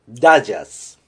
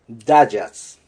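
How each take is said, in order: First: The first syllable has an 'a' vowel. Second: The same.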